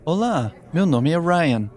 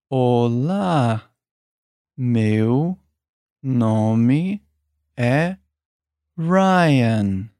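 First: It is said at normal speed. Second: It is said slowly.

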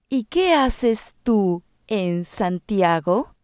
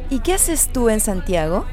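First: It is said slowly. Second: It is said at normal speed.

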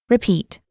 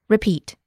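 Both takes have the same delivery.

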